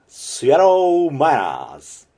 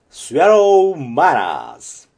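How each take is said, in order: Both takes have the same delivery.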